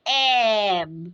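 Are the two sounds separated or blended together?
blended. The two sounds are joined without any break. "যখন বলবো একসাথে"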